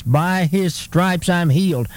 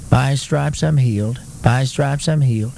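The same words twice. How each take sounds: First: Slow, firm declaration stressing "his stripes"; "By his stripes I'm healed" spoken deliberately, each phrase emphatic; declared with emphasis. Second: Imitating a half-hearted, unconvinced recitation; mock feeble confession, evenly droned; feeble attempt. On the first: Shown as a demonstration. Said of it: "when we declare with emphasis". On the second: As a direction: recite it without emphasis or belief. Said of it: "make maybe a little feeble attempt".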